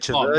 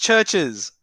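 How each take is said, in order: First: An extra vowel is added after the first sound. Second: It sounds like the plain word churches. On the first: The speaker calls it wrong. "Don't say Chiverches" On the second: The speaker calls it right. "It's Churches"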